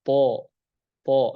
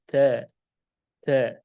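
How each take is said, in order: First: TO said heavy with tongue raised; a dark, rounded "To"; thick to. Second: A thin front-vowel "Ta". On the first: Teacher demonstrates the letter, heavy "To". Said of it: "harus tebal atau terangkat lidahnya". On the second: Teacher contrasts it with to, thin "ta". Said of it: "Adapun ta tipis". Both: Shown as a demonstration.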